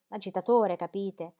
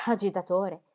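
First: Said in the usual way. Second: "Agitatore!" stressed with a mild bitter edge; bitter emphasis. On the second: A narrator's reading. Sir James throws back Brooke's word with bitter emphasis. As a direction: lean on "Agitatore" with understated contempt. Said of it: "esclamò Sir James con amara enfasi".

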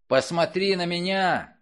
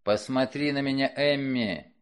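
First: "Посмотри" shouted high and loud; angry shout. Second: Commanding. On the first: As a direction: yell "Посмотри на меня" in fury. He repeats the command, enraged. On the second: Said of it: "он приказал". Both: Acted.

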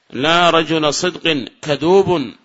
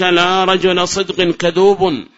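First: Slow, even repeat; slow measured repeat. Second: Slow, louder example; slow formal reading; slow recital. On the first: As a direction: say it again for students. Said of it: "repeats example slowly". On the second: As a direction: read the example out slowly. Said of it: "recites example slowly". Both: Shown as a demonstration.

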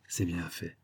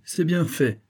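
First: Low, very soft repeat to oneself; aparté. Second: High, exclaimed satisfaction; exclamation satisfaite. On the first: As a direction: drop right down, almost under your breath. Same words repeated as aside. (en aparté, bas et très doucement) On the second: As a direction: say it out with the pitch raised. Valet is taunted, then repeated lower. (exclamation satisfaite, voix haute) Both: A narrator's reading.

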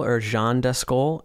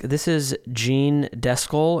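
First: "Jean" said with French nasal /ʒɑ̃/; "or Jean Descol" slowly, French vowel in Jean; Jean pronounced French. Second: "Jean" said as French /ʒɑ̃/, slow and careful; "Jean Descol" slowly, with French nasal Jean; Jean pronounced French. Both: Shown as a demonstration.

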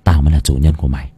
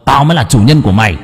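First: Low, fast, contained anger; growing menace through gritted teeth, low. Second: Fast, forceful claim of dominance; angry retort. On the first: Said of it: "nghiến răng". (nghiến răng, gằn giọng thấp) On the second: Two selves fight over mastery. (quát lại giận dữ, giành quyền làm chủ) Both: A narrator's reading.

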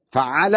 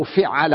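First: فعل as "fa‘‘ala", opening with a short a; short a after the ف of فعل, drawn out; fatha on the fa. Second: فعل as "fi‘‘ala", opening with a short i; short i after the ف of فعل; kasra on the fa. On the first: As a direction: say فعل with "fa" first and a doubled ayn. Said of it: "فعل مفتوح الفاء". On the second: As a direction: say فعل with "fi" first and a doubled ayn. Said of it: "أو فعل حسب رأيك". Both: Shown as a demonstration.

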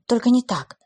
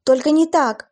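First: Tearful, pleading; sobbing plea. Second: Loud, high tearful cry; louder sobbing plea. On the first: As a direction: beg through sobs. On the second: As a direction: cry it out, breaking down. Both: Acted. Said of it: "всхлипывая".

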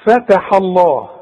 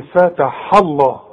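First: فتح الله slowly, the haa light and thin; correct light ha. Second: فتح الله slowly, the haa made thick when joined. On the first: Teacher gives students the correct فتح الله. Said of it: "قلتها صحيحة". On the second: Teacher warns students about a thick haa in فتح الله. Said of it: "ممكن تتخن معاك الحاء". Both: Shown as a demonstration.

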